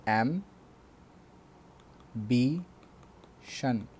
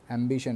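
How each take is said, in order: First: एम्बिशन stretched very slowly as एम, बि, शन; three separate syllables. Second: Said in the usual way. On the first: Shown as a demonstration. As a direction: break एम्बिशन into three beats with long pauses. (एम्बिशन को तीन बार तोड़कर, बहुत धीरे) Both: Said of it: "जो तीन बार तोड़कर बोले जा सके".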